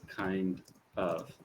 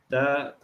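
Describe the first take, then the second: First: The two words are said fully and separately. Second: The two words are run together quickly. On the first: The speaker calls it right. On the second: The speaker calls it wrong.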